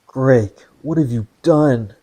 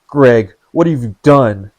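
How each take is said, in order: First: It is said quietly, in a hushed voice. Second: It is said loudly, as a scream.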